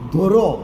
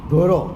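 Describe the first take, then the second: The two takes are said the same way.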